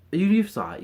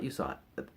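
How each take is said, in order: First: Loud teasing. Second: Quiet. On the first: Teasing the viewer, repeated. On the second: Same words, dropped low. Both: Acted.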